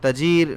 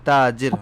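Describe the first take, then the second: First: The first vowel is short, without lengthening. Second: The first vowel is long and drawn out. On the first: The speaker calls it wrong. "তাজির না বলে" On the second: The speaker calls it right. "তাজির হবে"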